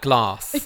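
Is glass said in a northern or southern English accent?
southern. It is said with a southern English accent.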